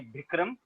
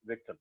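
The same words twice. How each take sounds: First: Bikram with a hard B at the start, not V; Bengali Bikram. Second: Vikram with a soft V and the r lightly tapped; Vikram, V kept as V, short i; South Indian Vikram. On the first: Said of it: "For Bengalis". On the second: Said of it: "South Indian accent". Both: Shown as a demonstration.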